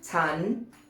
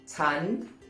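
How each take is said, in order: Both takes have the same delivery.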